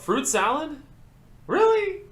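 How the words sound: It is said in a disappointed, disapproving tone. The speaker is disappointed and embarrassed by the other person.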